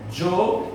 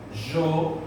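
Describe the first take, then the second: First: The word starts with a dj sound. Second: The word starts with a soft zh sound. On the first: "com o som de T J" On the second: "com o som de J"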